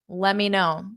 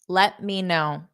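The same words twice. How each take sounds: First: The T is dropped; it sounds like one word. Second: Every sound is pronounced fully, including the T. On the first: "a lot of speakers, including myself, will say" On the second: "That's where you pronounce each sound fully"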